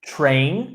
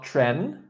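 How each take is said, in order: First: Train with a long A vowel; correct pronunciation. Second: Tren with a short E instead of long A; mispronounced train. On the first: Teacher correcting student, "Train" said with long A. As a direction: model "Train" with a full "ay" glide. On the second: Teacher showing the student's slip, "tren" with short E. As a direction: say "tren" to rhyme with "ten". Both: Shown as a demonstration. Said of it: "not tren".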